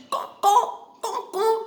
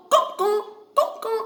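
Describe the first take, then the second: First: High cawing like a crow. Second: High crow caw sounds; crow caw demo. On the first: Retold or imitated. Teacher imitating the crow for students, high cawing. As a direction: caw it out like a crow. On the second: Shown as a demonstration. Teacher demonstrating a crow's sound to students, high caws. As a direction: show the class how a crow caws. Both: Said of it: "You know what is the sound of crow?".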